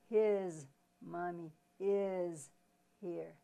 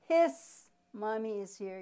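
First: The word his ends with a Z sound. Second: The word his ends with an S sound. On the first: The speaker calls it right. "It has the S with the sound of Z" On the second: The speaker calls it wrong. "you don't say"

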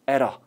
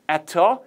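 First: The two words blend together, sounding like 'error'. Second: The two words are said fully and separately. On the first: "발음이 바뀐 거예요" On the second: "At a는 들을 수 있지만"

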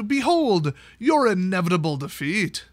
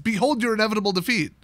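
First: There is a pause after "Behold". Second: There is no pause after "Behold".

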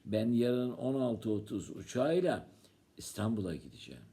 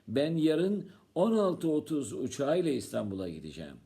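First: The stress falls on the word "İstanbul'a". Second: The stress falls on the time "16:30". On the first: It tells where to. "Sen yarın nereye gideceksin?" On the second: It tells what time. "Sen saat kaçta gideceksin?"

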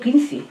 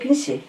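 First: The word is said with the local dialect pronunciation. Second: The word is said with a Portuguese-like pronunciation. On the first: This is how the speaker says it in the local dialect. "digo 15" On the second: This is how another speaker said it, not the speaker. "yo no digo 15"

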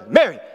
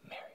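First: It is said harshly and sternly. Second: It is said softly and gently.

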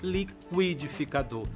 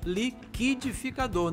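First: The qu sounds unlike it does in líquido. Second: The qu sounds as it does in líquido. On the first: The speaker calls it wrong. "não liquidificador" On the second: The speaker calls it right. "A água é um líquido, logo ... é o liquidificador"

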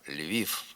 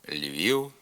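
First: The final sound is a voiceless f. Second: The final sound is a short non-syllabic u. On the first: The speaker calls it wrong. "Вимова ... є ненормативною" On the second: The speaker calls it right. "Треба говорити"

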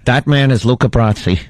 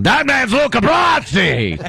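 First: The voice is soft, quiet and restrained. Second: The voice is loud, yelling and gravelly. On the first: "a little, you know, Michael" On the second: "yell in a gravelly voice"

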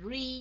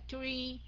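First: The word begins with an r sound. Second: The word begins with a plain t sound. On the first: "không phải là re nha" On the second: "Chứ không phải là tree"

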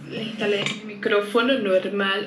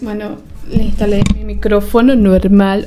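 First: The voice is played back through laptop speakers. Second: The voice is heard directly, not through speakers.

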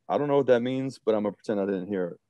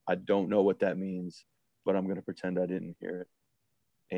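First: It is said at a normal, lighter pace. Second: It is said slowly and sternly.

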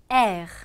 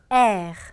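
The two takes are said the same way.

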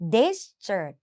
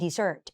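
First: The stress is on the first syllable. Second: The stress is on the second syllable. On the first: It means a dry, sandy land. "เน้นที่ตัวหน้า" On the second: It means a sweet dish after a meal. "มันเน้นที่ตัวหลัง"

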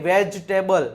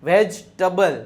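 No difference in how they are said.

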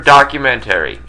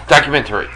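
First: The word is said with an extra syllable. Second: The word is said with its usual syllables. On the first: The speaker calls it wrong. "It seems like you're throwing an extra. Syllable" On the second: The speaker calls it right. "No, you got it now"

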